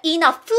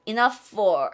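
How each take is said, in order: First: "enough" said as Korean i-neo-peu, each syllable flat; the wrong "enough" learners use. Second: "Enough for" run together, inaf-o, linked; linked pronunciation. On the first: Teacher showing the wrong "enough", syllable by syllable. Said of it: "아니라는 거예요". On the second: Teacher showing the right "Enough for", linked. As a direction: glide "Enough" straight into "for". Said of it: "이렇게 가죠". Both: Shown as a demonstration.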